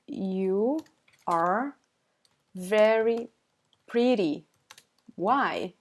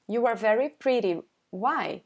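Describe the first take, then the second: First: Long pauses between words. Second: Said in the usual way. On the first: Shown as a demonstration. Teacher explaining what the learner said, word by word. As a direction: set out each word separately.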